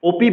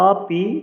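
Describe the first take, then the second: First: The word begins with an 'o' vowel. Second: The word begins with an 'a' vowel. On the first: The speaker calls it wrong. "ওপি বলা যাবে না" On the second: The speaker calls it right. "কারণ ও নয় আ।"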